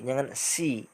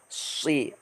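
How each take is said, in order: First: The s sound is light and thin. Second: The s sound is heavy and deep. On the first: The speaker calls it wrong. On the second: The speaker calls it right.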